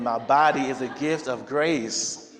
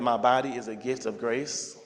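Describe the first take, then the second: First: It is said with strong conviction and energy. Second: It is said plainly, without extra emphasis.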